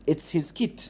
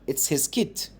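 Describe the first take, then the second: The two takes are said the same way.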